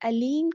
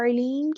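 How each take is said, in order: First: It begins with a plain open vowel. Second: It begins with a deep throaty consonant. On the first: It means painful. The speaker calls it wrong. "आइन को अलिफ से बदल दें, अलीम कह दें" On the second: It means the one who knows. The speaker calls it right. "अर्लीन का मतलब होता है जानने वाला"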